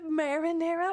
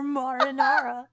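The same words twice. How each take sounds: First: Said in the usual way. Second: "marinara" with ah vowels, mah-ruh-NAH-ruh; dictionary pronunciation. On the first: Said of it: "marinara is how I always say it". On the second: Shown as a demonstration. Streamer questioning which version is right, "marinara" as mah-ruh-NAH-ruh. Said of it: "dictionary says it's marinara".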